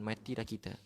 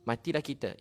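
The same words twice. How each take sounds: First: Said in the usual way. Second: Retold panic. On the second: The preacher voices the crowd sure they will die, loud despairing cry. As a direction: cry out Matilah kita as if doomed. Musa's people panic before sea.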